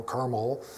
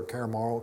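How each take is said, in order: First: Carmel said with CAR as its first syllable; soft CAR-mel for Carmel; alternative pronunciation. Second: Carmel said with CARE as its first syllable; soft, tentative CARE-mel for Carmel; alternative pronunciation. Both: Shown as a demonstration. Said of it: "however they pronounce it".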